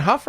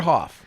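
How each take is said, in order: First: "Huff" with a short uh vowel; pronounced Huff. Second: "Hoff" with an open aw vowel; pronounced Hoff. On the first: Host checking a guest's surname, offering "Huff" with an uh vowel. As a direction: say "Huff" to rhyme with "stuff". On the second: Host checking a guest's surname, offering "Hoff" with an open aw vowel. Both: Shown as a demonstration. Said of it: "I've heard it pronounced both ways".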